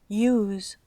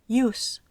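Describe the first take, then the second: First: The final S is voiced, like a z. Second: The final S is voiceless, like a hiss. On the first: It is the verb meaning to use. "pronunciada con la S sonora es un verbo" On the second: It is the noun meaning the use. "con la S sorda es un sustantivo"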